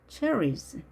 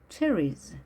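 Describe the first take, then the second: The two takes are said the same way.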